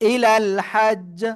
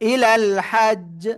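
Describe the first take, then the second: No difference in how they are said.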